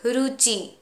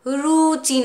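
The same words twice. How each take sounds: First: The correct रुचि with a short u; right way. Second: रुचि said with a long roo, drawn out and louder; the wrong रुचि, stretched as roochi; रुचि with the u held too long. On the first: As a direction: clip the u in रुचि. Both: Shown as a demonstration. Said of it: "रुचि नहीं".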